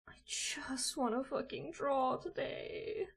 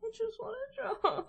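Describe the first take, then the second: First: Hissed whisper-shout, slow; real desperate whisper; frustrated whisper. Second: High, laughing whine; real despairing laugh. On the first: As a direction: whisper it through clenched frustration. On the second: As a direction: laugh at your own frustration. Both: Real, not acted. Frustrated at software.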